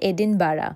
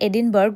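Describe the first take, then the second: First: It ends with a soft 'bara' sound. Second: It ends with a clear 'burg' sound. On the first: "but স্কটিশে এটাকে বলে এডিনবারা" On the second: "আমরা English উচ্চারণে এডিনবার্গ বলি"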